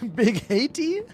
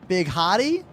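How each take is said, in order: First: The name's first syllable sounds like hate. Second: The name's first syllable sounds like hat. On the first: "Or is it hate?" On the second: "Is the E silent?"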